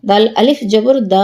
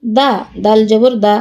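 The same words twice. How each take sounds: First: Long, sustained দা; drawn-out vowel. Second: Quick, unheld দা; no stretch on দা; short vowel. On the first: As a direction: hold the final দা for one alif count. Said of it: "কোথায় টান দিই". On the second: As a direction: say each দা short. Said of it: "কোথায় দ্রুত পড়ি". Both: Shown as a demonstration.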